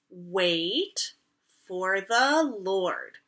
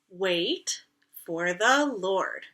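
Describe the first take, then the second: First: It is said at a normal pace. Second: It is said a little faster.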